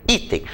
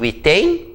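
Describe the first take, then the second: First: Item with a higher, stressed first i, then a falling tem; stress on the first syllable. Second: Item with the stress pushed onto the final tem; stress on the last syllable. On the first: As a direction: say Item as I-tem, punching the opening i. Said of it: "Então a sílaba tônica é o i". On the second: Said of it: "Como é que eu pronuncio essa palavra?". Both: Shown as a demonstration.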